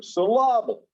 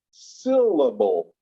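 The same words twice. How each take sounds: First: Syllable said as "suh-LAH-bul"; strange stress in syllable. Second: Said in the usual way. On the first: Shown as a demonstration. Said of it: "it sounds strange when you do it". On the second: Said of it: "as opposed to syllable".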